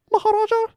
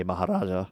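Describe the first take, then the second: First: Cracking on the word Maharaja. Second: Said in the usual way. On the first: Real, not acted. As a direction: voice cracks high and loud. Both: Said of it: "Voice crack".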